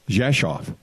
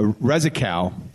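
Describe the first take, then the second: First: It begins with a zh sound, like Jeshoff. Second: It begins with a rolled R, read letter by letter. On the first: This is how local people actually say the name. The speaker calls it right. "in Polish it's uh, pronounced uh" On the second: This is how the name looks when read from its spelling. The speaker calls it wrong. "it looks like Rezikov"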